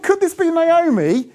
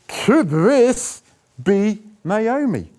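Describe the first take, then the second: First: The question sounds warm and kindly. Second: The question sounds scornful and unkind.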